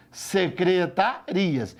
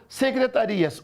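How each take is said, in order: First: "Secretarias" very slow, in separated syllables. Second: Said in the usual way. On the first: Shown as a demonstration. Teacher shows what is written, "Secretarias" syllable by syllable.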